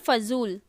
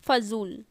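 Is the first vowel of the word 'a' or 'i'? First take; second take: a; a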